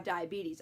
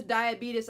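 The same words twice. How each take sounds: First: "diabetes" as dye-uh-BEE-teez; correctly repronounced. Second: "diabetes" as dye-uh-BEET-us; grandma's mispronunciation. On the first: Granddaughter fixes grandma's word, "diabetes" as dye-uh-BEE-teez. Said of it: "or repronounce it correctly". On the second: Quoting grandma's word, "diabetes" as dye-uh-BEET-us. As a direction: end "diabetes" in "-us", not "-eez". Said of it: "when she says diabetes". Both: Retold or imitated.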